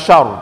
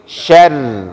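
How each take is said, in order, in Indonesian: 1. Vokalnya tebal dan berat. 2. Vokalnya tipis dan ringan. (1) "Tadi masih terdengar yang tebal" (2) "langsung turunkan"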